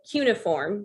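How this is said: It is said the British way.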